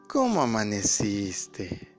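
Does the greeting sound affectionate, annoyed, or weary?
affectionate. It is said in a warm, tender tone. The couple is still happy together.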